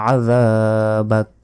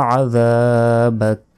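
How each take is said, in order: Both takes have the same delivery.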